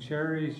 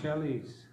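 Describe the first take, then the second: First: The middle consonant is an r sound. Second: The middle consonant is an l sound. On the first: "instead of saying cherries" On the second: "you'd say chellies"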